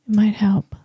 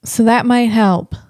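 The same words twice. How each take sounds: First: Breathy whispered aside. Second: Said in the usual way. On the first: Real, not acted. Echoing his own hope to viewers in a whisper. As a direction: whisper it to yourself. Whispered echo of previous line.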